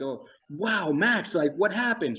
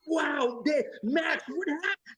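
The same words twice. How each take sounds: First: Said in the usual way. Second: Over the top. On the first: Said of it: "I say something like". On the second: Retold or imitated. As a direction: go totally over the top, like a fool. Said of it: "you want me to act like an idiot".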